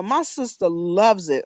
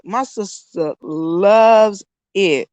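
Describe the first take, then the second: First: Said in the usual way. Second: LOVES stretched long and slow; drawn-out emphasis. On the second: Real, not acted. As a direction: lean hard and slowly on "loves".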